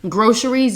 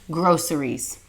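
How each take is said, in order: First: The first syllable does not sound like 'gross'. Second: The first syllable sounds like the word 'gross'. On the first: The speaker calls it wrong. "If you have been saying groceries, you're wrong" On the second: The speaker calls it right. "It's groceries"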